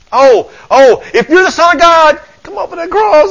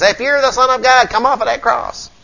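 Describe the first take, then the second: First: High, loud, desperate wail; panicked devil. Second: Higher-pitched taunt at the crucified Jesus; mocking jeer. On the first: Acted. Devil begging Jesus off the cross, in acted panic. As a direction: cry it out as a hammed-up panicking devil. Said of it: "I can hear the panic in the devil's voice". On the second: Preacher voicing those who mock Jesus, jeering. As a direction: jeer it like the devil's mocking crowd. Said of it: "they, they mock Jesus".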